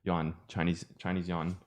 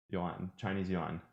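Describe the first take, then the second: First: "Chinese yuan" run together quickly; quick natural "Chinese yuan"; faster "Chinese yuan". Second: Deliberately slow "Chinese yuan"; slow careful "Chinese yuan". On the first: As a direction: rattle off "Chinese yuan" in one breath. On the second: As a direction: say "Chinese yuan" slowly, each word apart. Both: Shown as a demonstration. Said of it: "you would say it faster".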